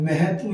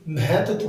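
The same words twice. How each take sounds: First: महत्व ending loosely in "-tu"; wrong single consonant. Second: महत्व slowed, with a doubled t; correct double consonant. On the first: Teacher showing the mistake, महत्व with a single t. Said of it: "महत्व ये ऐसे नहीं होता". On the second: Teacher explaining the double letter, महत्व with held "tt". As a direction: say महत्व as "ma-hat-tva". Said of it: "आधा तय डबल होता है". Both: Shown as a demonstration.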